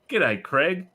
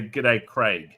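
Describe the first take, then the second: First: Craig pronounced kreg, short e; G'day, Craig, with Craig rhymed with peg; Craig said as Creg. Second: Craig pronounced krayg, long ay; G'day, Craig, with Craig rhymed with vague; Craig said as Crayg. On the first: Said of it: "do you say". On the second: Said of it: "or do you say". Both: Shown as a demonstration.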